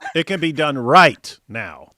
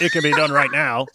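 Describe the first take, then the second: First: There is a pause between right and now. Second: It runs straight through without a pause.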